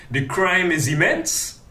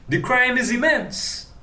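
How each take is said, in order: First: Said in the usual way. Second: "crime" pitched up high, hammered home; emphatic repeat with "crime" punched up high; stress on crime. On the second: Shown as a demonstration. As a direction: repeat it, leaning hard on "crime".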